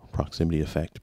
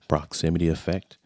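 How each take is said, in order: First: The voice has strong low bass and sounds boomier. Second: The voice has reduced low bass and sounds thinner. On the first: The low cut filter is off. "Here's with it off. Low cut filter off" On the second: The low cut filter is on. "so the low cut filter has been engaged. Do you hear a difference?"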